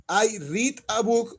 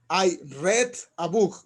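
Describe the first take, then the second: First: "read" said as reed, slow and clear; present read, slowly. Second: "read" said as red, slow and clear; past read, slowly. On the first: Teacher to students, present tense, read as reed. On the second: Teacher to students, past tense, read as red. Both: Shown as a demonstration. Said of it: "En pasado se pronuncia como el color".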